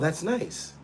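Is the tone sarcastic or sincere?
sincere. It sounds warm and genuinely pleased. The speaker is genuinely pleased. The speaker calls it wrong. "you guys probably right think I'm saying it like"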